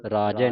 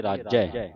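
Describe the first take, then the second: First: ਰਾਜੈ with a loose, single "j"; soft consonant. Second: ਰਾਜੈ with a tight, doubled "jj"; tightened consonant. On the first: Teacher shows what to avoid, ਰਾਜੈ with loose "j". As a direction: say ਰਾਜੈ with the ਜ left slack. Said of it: "ਰਾਜੈ ਨਹੀਂ ਬੋਲਣਾ ਪੋਲਾ". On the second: Teacher models the verse for learners, ਰਾਜੈ with tight "jj". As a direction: press hard on the ਜ in ਰਾਜੈ. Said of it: "ਇਹਨੂੰ ਕੱਸ ਕੇ ਬੋਲਣਾ". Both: Shown as a demonstration.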